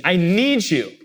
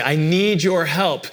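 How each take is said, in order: First: Mildly more urgent, pressing on need; urgent plea. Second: Said in the usual way. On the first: Retold or imitated. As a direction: ask as if you truly need them. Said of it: "really urgently asking". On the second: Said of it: "When you say".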